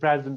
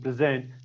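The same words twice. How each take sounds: First: The stress is on the first syllable. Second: The stress is on the second syllable. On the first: It is used as a noun or adjective. "as a noun or as an adjective, we stress the first syllable" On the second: It is used as a verb. "as a verb, we stress the second syllable"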